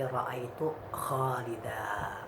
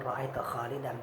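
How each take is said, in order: First: The last word ends on a long vowel. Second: The last word ends with an n sound. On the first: The speaker calls it right. "tanwinnya itu kita ganti menjadi alif" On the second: The speaker calls it wrong.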